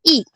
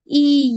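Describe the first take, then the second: First: ई said short, cut off at once; short quick vowel. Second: ई loud and held long; long drawn-out vowel. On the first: Teacher contrasts the two vowels, short quick ई. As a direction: say ई instantly, without holding it. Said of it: "छोटी ई की मात्रा हम तुरंत उच्चारण करते हैं". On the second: Teacher contrasts the two vowels, long held ई. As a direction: stretch ई out on one steady note. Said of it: "लंबा खींचते हैं". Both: Shown as a demonstration.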